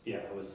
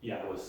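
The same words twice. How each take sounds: The two takes are said the same way.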